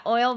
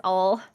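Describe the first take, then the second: First: "oil," with a clear OY glide; "oil," with both vowel sounds; standard pronunciation. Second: "all." standing for oil, one long AW; oil flattened to "all."; Southern pronunciation. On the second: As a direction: drawl it as "all.", no OY glide. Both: Shown as a demonstration. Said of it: "but it's all".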